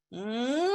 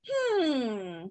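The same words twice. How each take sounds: First: Long rising "hmm"; drawn-out hum sliding up toward a yes; considering hum. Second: Long falling "hmm"; drawn-out hum sliding down toward a no; doubtful hum. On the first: Student acts out a tentative yes, rising hmm. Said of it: "Or if it's like". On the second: Student acts out a reluctant answer, long falling hmm. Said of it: "what if it's like". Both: Shown as a demonstration.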